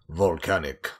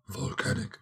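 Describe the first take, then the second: First: The hoarse cold voice is only moderate. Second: The hoarse cold voice is heavily exaggerated.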